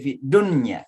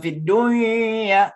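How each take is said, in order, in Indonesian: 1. Bunyi n dilafalkan jelas sebelum y. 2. Bunyi n menyatu secara sengau ke y yang mengikutinya. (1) "tapi fid dunya ... Jadi n-nya jelas" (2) "bukan fid dunya"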